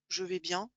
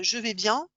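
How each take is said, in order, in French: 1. Ça sonne plat et peu convaincant. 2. Ça sonne simple et vraiment bien.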